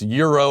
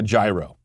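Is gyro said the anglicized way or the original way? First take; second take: original; anglicized. First: The word is said the original way, like euro. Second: The word is said the anglicized way, as spelled. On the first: "you could say it's pronounced euro or whatever" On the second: "Gyro sounds better. It looks better. That's how I pronounce it"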